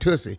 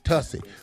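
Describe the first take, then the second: First: The first vowel sounds like in 'put'. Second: The first vowel sounds like in 'cut'. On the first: This is how a child guessed the name was said. The speaker calls it wrong. "I thought it was Tussie" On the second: This is how the brand name is properly said. The speaker calls it right. "correct pronunciation is Tussie"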